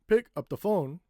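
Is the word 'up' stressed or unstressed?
unstressed. The word 'up' is reduced and unstressed. The speaker calls it wrong. "we don't say"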